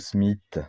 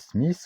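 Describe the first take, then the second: First: The final 'th' is said without the 'h'. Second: The final 'th' is said with the 'h' sounded. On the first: "ou pas?" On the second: "Est-ce que vous prononcez le H"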